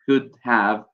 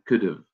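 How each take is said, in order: First: Both words are said fully and clearly. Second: 'Have' is reduced to a weak, short sound.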